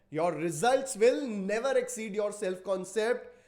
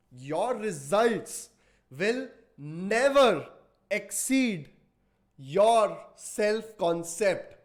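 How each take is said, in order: First: Said in the usual way. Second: Slow and loud, each word weighted; slow emphatic statement. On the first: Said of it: "same line said slowly before". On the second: Shown as a demonstration. Coach drilling the audience, slow and loud emphasis. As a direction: hammer the maxim home word by word. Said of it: "repeats the line plainly after".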